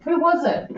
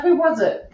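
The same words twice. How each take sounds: First: Softer laughing repeat. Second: Said in the usual way. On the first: Real, not acted. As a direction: laugh through the question.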